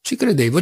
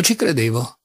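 First: A higher, insistent cry; flinging the words back at him; first, heated take of the phrase; irritated outburst. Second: Said in the usual way. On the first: A narrator's reading. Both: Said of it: "gridò Alyosha irritato".

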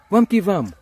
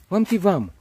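No difference in how they are said.

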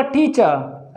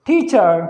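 First: टीचर ending in a plain schwa, no r; r not pronounced. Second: टीचर ending in a curled-tongue American r; r pronounced. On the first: Teacher showing students the British way, r dropped. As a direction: drop the final r of टीचर, "tee-chuh". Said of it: "रे नहीं बोला". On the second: Teacher showing students the American way, r pronounced. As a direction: roll the tongue up for the final r of टीचर. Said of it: "रे ऊपर बोला जाता है". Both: Shown as a demonstration.

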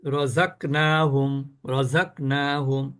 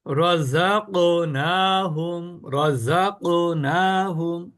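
First: রযাকনাহুম slow, ক stopped dead; রযাকনাহুম lower, no echo on ক; without qalqala. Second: রযাকনাহুম very slow, ক bouncing; recited রযাকনাহুম with springy ক; with qalqala. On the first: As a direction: say রযাকনাহুম with a flat closed ক. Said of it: "আর যদি কলকলা না করি". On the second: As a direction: chant রযাকনাহুম, letting the ক echo. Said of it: "কলকলা করলে কেমন হয়?". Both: Shown as a demonstration.

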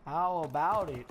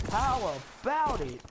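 First: Said in the usual way. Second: "How about it" with strong swoops on HOW and ABOUT; emphatic repeat. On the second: Real, not acted. Repeats the taunt more emphatically.

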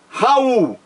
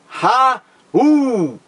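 First: Said in the usual way. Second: "Raul" split in two, Ra... ul, each drawn out; syllables separated. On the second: Shown as a demonstration. Teacher separating the syllables of "Raul" for students, drawn out and split. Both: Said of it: "Vamos separar a sílaba".

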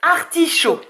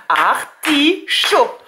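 First: Said in the usual way. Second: "Artichaut" stretched slowly as ar-ti-chaut; syllables drawn out. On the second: Shown as a demonstration. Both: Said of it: "le che dans la troisième syllabe".

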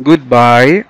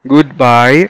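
Both takes have the same delivery.

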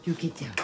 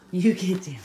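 First: Said in the usual way. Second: Louder, firmer get down; firm command. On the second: Real, not acted. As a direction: say it again, sterner. Repeated louder command to dog.

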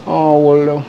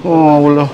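Both takes have the same delivery.

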